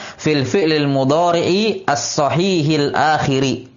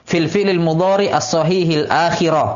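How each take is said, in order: First: The last word ends in an i vowel. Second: The last word ends in an a vowel. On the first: The word is in the genitive case. "bisa di'rab jar" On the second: The word is in the accusative case.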